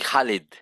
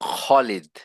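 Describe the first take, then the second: First: The first consonant is made mid-mouth. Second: The first consonant is made in the throat. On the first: This is how Bengali speakers say the name. The speaker calls it wrong. "আমরা বলি খালিদ।" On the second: This is the original Arabic pronunciation. The speaker calls it right. "গলার এই উপরের থেকে বলতে হবে খ। ... আরবিতে শুদ্ধ উচ্চারণ হচ্ছে"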